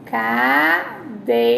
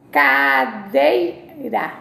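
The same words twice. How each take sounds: First: Cadeira said again slowly; slow repeat. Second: Cadeira drawn out very slowly; slow pronunciation demo. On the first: Teacher to class, repeating cadeira slowly. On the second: Teacher to class, saying cadeira as she says it. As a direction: stretch cadeira out syllable by syllable. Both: Shown as a demonstration. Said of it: "como eu falo".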